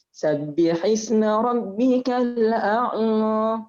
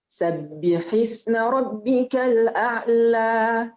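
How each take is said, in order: First: The final vowel sounds nasal, through the nose. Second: The final vowel sounds clear, not through the nose. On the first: The speaker calls it wrong. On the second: The speaker calls it right.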